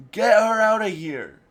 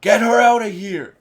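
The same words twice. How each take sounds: First: Another imitation of the frightened, loud, high yell; retold panic, loud and high; second try at panicked yell. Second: Imitating a frightened, much louder, higher yell; mock terrified order, loud and high; panicked yell. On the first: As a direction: try the desperate order once more. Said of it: "I can't do a good". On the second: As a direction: shout it in a panic for someone to take her away. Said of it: "you can hear the fear in Wilson Fisk's voice as he's like".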